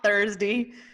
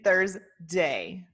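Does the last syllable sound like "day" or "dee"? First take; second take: dee; day. First: The last syllable is said as "dee". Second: The last syllable is said as "day". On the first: The speaker calls it wrong. "it's not" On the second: The speaker calls it right.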